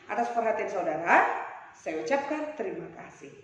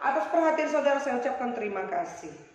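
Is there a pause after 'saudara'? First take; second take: yes; no. First: There is a pause after saudara. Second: It runs on with no pause after saudara.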